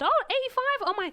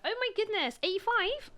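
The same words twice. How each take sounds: First: High-pitched mock astonishment; surprised exclamation. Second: High-pitched, surprised Bristolian imitation; Bristolian accent. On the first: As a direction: voice leaps up, imitating an amazed pharmacist. Retold pharmacist's surprised reaction. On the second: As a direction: put on an amateurish Bristol accent, astonished. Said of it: "well, she was Bristolian".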